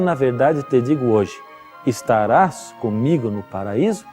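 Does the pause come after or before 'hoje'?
after. The pause comes after the word hoje. The promise, made that day, is of paradise later. "Jesus estava prometendo naquele dia que um dia ele estaria com Jesus no paraíso"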